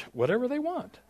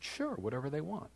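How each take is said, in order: First: Very high, squeaked-up yes; startled agreement. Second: Softly agree, a little high; quiet, offhand yes; easygoing agreement. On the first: Guest preacher asked to run whole service, high-pitched agreement. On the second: Guest preacher agrees to speak briefly, quiet and easygoing. Casual agreement to Marcus's first request. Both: Retold or imitated.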